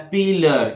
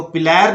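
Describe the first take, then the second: First: पिलर with a short uh at the end; correct pronunciation. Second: पिलर with a clear e at the end; wrong pronunciation. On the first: Teacher shows the right way, pil-lur. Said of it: "इसको बोलना है". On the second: Teacher mimics the wrong way, pil-ler. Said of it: "नहीं बोलना है". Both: Shown as a demonstration.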